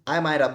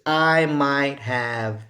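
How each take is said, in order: First: The words blend into one short sound. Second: Both words are said fully and clearly. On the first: "se escucha como que digas Ma Mayra, como el nombre Mayra" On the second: "vamos a decirlo normalmente"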